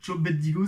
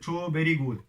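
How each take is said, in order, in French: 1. Elle est enchaînée avec des sons de style japonais. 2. Chaque mot est prononcé séparément et simplement. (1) "Les Japonais ont un accent en anglais horrible" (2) "ils voulaient dire Cho very good"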